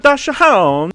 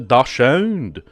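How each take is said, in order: First: It is said in an Italian accent. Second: It is said in a French accent. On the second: "How would a French person say it?"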